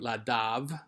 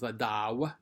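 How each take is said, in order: First: The stem ends in a v sound. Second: The stem ends in a w sound. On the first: The speaker calls it wrong. "that gave you ladav" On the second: The speaker calls it right. "better pronunciation was ladaw"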